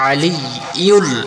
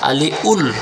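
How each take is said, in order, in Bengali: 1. 'ul' এর আগে 'y' ধ্বনি আসে। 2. 'ul' এর আগের 'y' ধ্বনিটি বাদ যায়।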